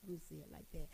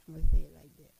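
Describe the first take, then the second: First: "I'ma say it like that" dropped to a near-murmur, very soft; soft repeat. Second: "I'ma say it like that" said out loud and punchy, in an altered voice; loud emphatic take. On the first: Preacher softly repeating her phrasing to women, quiet. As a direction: let it fall away quietly. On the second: Preacher driving the line home to women, loud. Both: Shown as a demonstration. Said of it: "That's the right way of saying it".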